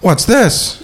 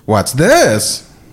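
First: The stress is not on the word this. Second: The stress falls on the word this. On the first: "Oh, he's outraged" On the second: "just put the emphasis on this"

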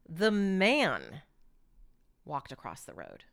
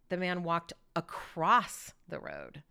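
First: The word man is stressed. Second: The word across is stressed.

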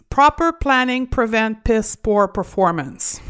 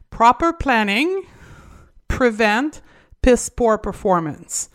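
First: It is said at normal speed. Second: It is said slowly.

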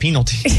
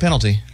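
First: The first syllable is a long, hard 'peen'. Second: The first syllable is a short, plain 'pen'. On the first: This is not how the speaker says it. The speaker calls it wrong. "I don't say they got a penalty" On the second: This is how the speaker normally says it. The speaker calls it right. "I would say like, oh man, they just got a penalty"

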